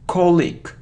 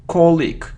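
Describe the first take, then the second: First: The stress is on the first syllable. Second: The same.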